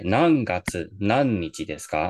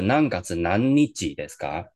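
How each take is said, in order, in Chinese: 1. 整个短语的音调都是下降的。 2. 音调是上升的，而不是下降。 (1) "全部都往下念了哈" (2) "而不是"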